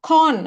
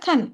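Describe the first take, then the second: First: The vowel is long, like 'kaan'. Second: The vowel is short, like 'kun'. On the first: The speaker calls it wrong. "கான் அப்படி படிக்கிறது இல்ல" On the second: The speaker calls it right. "கன் அப்படிதான் படிப்போம்"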